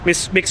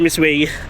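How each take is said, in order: First: The name ends with an 'oo' sound. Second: The name ends with a 'way' sound. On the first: The speaker calls it wrong. "Di ba sa Singapore palagi tayo nag-mixu" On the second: The speaker calls it right. "May nag-correct kasi sa akin na Miss Wei daw ang pag-pronounce nun"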